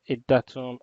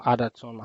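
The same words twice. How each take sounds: First: "Adatum" said as ih-DAH-tum; pronunciation variant. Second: "Adatum" said as AD-uh-tum; alternative pronunciation. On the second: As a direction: stress the first syllable of "Adatum", AD-uh-tum. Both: Shown as a demonstration. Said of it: "however you want to pronounce it".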